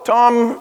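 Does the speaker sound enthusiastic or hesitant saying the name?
hesitant. The name is said hesitantly and reluctantly.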